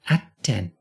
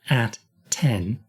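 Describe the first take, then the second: First: The two T sounds merge into one. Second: The two T sounds are said separately. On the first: The speaker calls it right. "it's at ten" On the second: The speaker calls it wrong. "So it's not at ten"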